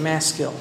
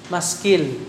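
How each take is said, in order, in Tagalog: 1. Ang salita ay binibigkas nang may pagbigkas na Amerikano. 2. Ang salita ay binibigkas nang may pagbigkas na Tagalog. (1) "If you're American, you say Maskil" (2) "Sa Tagalog, Maskil"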